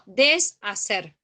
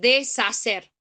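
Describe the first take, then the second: First: It is split into syllables as des-ha-cer. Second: It is split into syllables as de-sha-cer. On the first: The speaker calls it right. "Yo digo deshacer" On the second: The speaker calls it wrong. "No puedo decir deshacer"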